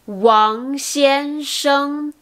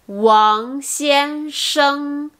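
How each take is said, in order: The two takes are said the same way.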